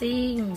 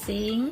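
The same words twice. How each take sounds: First: The word is said on a falling tone. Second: The word is said on a high tone.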